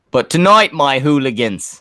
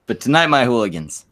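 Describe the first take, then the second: First: Hammed-up bad British announcer, raised voice; botched British accent. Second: Said in the usual way. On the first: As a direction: attempt a British accent, landing on Australian. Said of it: "supposed to be a British accent". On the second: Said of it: "I'm not doing this right".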